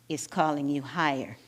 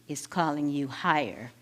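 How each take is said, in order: The two takes are said the same way.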